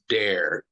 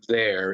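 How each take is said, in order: First: It starts with a hard d sound. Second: It starts with a soft th sound. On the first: The speaker calls it wrong. "it's dare, D A R E" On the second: The speaker calls it right. "it's not there"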